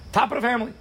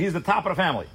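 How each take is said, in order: First: Higher emphatic repeat. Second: Said in the usual way. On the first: Real, not acted. Preacher repeats top of the family, pitched up high.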